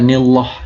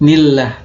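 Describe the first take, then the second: First: The L in 'llah' is heavy and thick. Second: The L in 'llah' is light and thin. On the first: The speaker calls it wrong. "bukan nillah" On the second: The speaker calls it right. "Contoh yang tipis"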